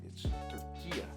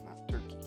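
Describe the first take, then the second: First: The name is said in its local form. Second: The name is said in its English form. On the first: This is the official name now. The speaker calls it right. "locals kept on ... correcting me. It's Turkey" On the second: This is the old name. The speaker calls it wrong. "We used to say Turkey"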